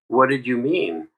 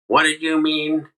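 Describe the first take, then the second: First: It sounds curious and wanting to understand. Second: It sounds like an accusing attack.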